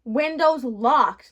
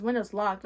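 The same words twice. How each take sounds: First: Windows locked drawn out slow and loud; slow loud punchline "windows locked"; emphatic. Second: Said in the usual way. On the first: Real, not acted. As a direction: hammer "windows locked" slowly and loudly.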